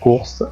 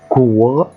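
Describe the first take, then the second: First: The word ends with an s sound. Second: The word ends without an s sound. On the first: The speaker calls it wrong. "ما ينفعش أقول ايه آه كورس خطأ" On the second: The speaker calls it right. "هنا الاس لا تنطق"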